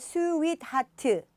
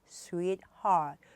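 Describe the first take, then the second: First: It is said in four separate syllables. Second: It is said in two syllables, unreleased T. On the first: The speaker calls it wrong. "스윗 하트 사음절이 아니라" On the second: The speaker calls it right. "두 개로 하시면 되고요"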